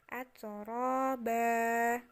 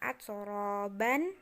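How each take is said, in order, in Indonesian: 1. Kata ini berakhir dengan bunyi a panjang. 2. Kata ini berakhir dengan vokal plus n. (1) "jadinya atroba" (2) "Bukan atroban"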